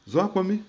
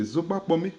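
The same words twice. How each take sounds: First: Zoa Kwame said short, with the g dropped from Zogba; contracted form. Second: Zogba Kwame said in full with the gb sound; full form. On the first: Teacher shows the casual contracted Zoa Kwame. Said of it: "les gens contractent". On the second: Teacher gives the proper full Zogba Kwame. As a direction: give every sound of Zogba Kwame, gb included. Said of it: "le vrai mot, c'est". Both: Shown as a demonstration.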